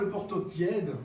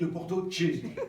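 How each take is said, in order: First: The word is said the standard French way. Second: The word is said the Walloon way, 'tché'. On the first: "On ne dit pas le porto tiède" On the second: "en Wallonie on dit le porto tché"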